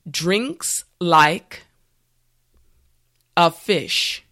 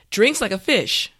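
First: The phrase is said slowly and carefully. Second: The phrase is said at normal, everyday speed. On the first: "Now repeat after me" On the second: "now let's say it at a normal pace"

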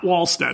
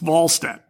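First: The name begins with a W sound. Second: The name begins with a V sound. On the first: The speaker calls it wrong. "It's not Wallstedt" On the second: The speaker calls it right. "Wallstedt with a V"

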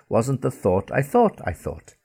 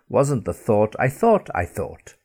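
No difference in how they are said.

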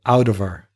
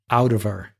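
The two takes are said the same way.

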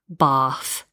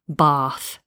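The two takes are said the same way.

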